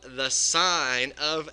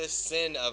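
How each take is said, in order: First: The word rhymes with 'line', a long vowel. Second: The word rhymes with 'pin', a short vowel. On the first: The speaker calls it right. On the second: The speaker calls it wrong.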